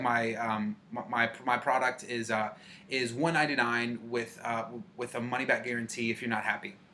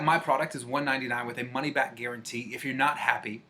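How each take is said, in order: First: It sounds hesitant, full of fillers and restarts. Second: It sounds confident and smooth, without any fillers. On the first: The speaker seems unsure of the product. The speaker calls it wrong. "How uncomfortable did that make you feel?" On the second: The speaker believes in the product. The speaker calls it right. "But how much better would it be?"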